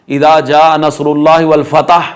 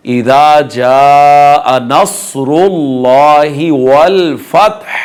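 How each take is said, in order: First: इदा जा unstretched, फतह ending as "fatah"; mistaken quick reading. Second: जा held very long, फतह ending in breathed h; slow measured chant of इदा जा नसरुल्लाहि वल फतह; correct tajweed recitation. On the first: Teacher showing the common error, mistaken quick reading. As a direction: read it through without elongations, adding a vowel in फतह. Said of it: "ये गलत है". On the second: Teacher reciting the complete verse, correct tajweed recitation. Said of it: "इसको मुकम्मल आयत को हम पढ़ेंगे". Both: Shown as a demonstration.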